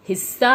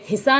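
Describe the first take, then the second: First: The middle s sound is stressed and held. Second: The middle s sound is light and short. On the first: The speaker calls it right. "हमने अध स के ऊपर थोड़ा जोर दिया है" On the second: The speaker calls it wrong. "यह हिस्सा नहीं है"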